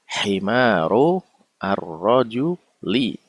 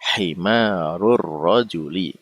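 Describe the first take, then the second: First: The two words are said separately, not linked. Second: The two words are linked into one run.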